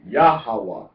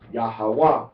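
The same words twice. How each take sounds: First: The stress is on the first syllable. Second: The stress is on the third syllable. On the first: "Accent or emphasis on the first syllable is Yahweh" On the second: "or emphasis on the third syllable is Yahweh"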